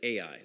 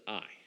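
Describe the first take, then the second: First: The name is said as two syllables. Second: The name is said as one syllable. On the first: The speaker calls it wrong. "we pronounce it Ai. That's not the right way to pronounce it" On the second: The speaker calls it right. "You pronounce it I"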